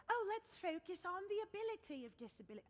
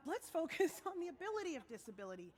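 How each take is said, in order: First: Higher-pitched put-on British voice; mock British accent. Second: Said in the usual way. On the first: Singer mimicking people who say things like this, mock British accent. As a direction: parody well-meaning people in a British accent. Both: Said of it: "I don't know why that became British".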